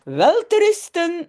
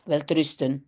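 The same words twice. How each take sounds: First: Higher, louder sweet goodnight; lightly voiced kindly aunt tucking children in; aunt Mies saying goodnight. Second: Said in the usual way. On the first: Teacher reading the story to students, lightly voicing the aunt. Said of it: "zegt tante Mies". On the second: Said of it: "c'est ce qu'on dit pour dire bonne nuit".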